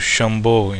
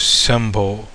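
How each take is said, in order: First: The word begins with a sh sound. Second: The word begins with an s sound. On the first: This is the Hindi pronunciation. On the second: This is the Telugu pronunciation.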